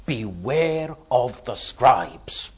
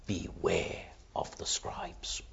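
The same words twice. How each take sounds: First: "Beware" drawn out, slow and deliberate, a public warning; said openly aloud. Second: Hushed, secretive whisper of a warning. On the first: Preacher voicing Jesus warning the crowds slowly and openly. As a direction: lay out "Beware of the scribes" slowly, for the whole crowd to hear. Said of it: "He says it loudly. He says it publicly". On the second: Preacher whispering the warning to the congregation. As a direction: breathe it like a secret. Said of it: "He says it loudly". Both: Shown as a demonstration.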